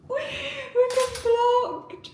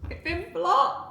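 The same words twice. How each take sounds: First: Very high, drawn-out whine; long high-pitched cry of dismay; dismayed wail. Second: High, rising cry of disbelief; real startled dismay. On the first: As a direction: wail it slowly, nearly crying. Repeats it in mounting dismay. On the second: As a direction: say it higher, as if you can't believe it. Website blocks her mid reveal. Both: Real, not acted.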